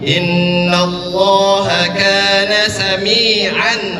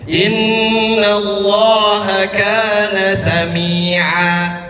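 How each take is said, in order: First: It ends in a clear n, running on. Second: It stops on a long a without the n. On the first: The reader continues without stopping. "Tanwin bertemu dengan ain. Idhar, jelas. Tanwinnya jelas" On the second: The reader stops because breath ran out. "misalkan saya nggak kuat nih nafasnya"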